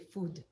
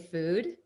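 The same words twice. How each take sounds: First: It is said with a Hebrew accent. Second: It is said in a plain standard accent. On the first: "my favorite word that people say with their Hebrew accents is food" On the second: "They don't say food"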